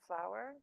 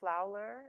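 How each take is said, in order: First: The word has no extra L sound inserted. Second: An extra L sound is inserted in the word. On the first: This is the usual pronunciation. The speaker calls it right. "instead of flower" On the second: This is how the child mispronounced it. The speaker calls it wrong. "She used to always say the word flowler"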